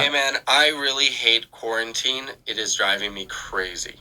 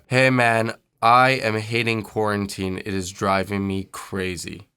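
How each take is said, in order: First: It has wide vowels and a brighter tone. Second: It has narrow vowels and a darker tone.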